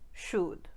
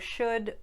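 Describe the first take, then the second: First: The vowel is a tight puckered oo. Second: The vowel is short and relaxed. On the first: "pucker more, turning in the tighter oo sound" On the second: "the U sound uh in words like could, should"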